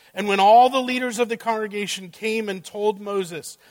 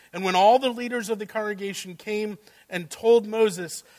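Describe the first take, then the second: The two takes are said the same way.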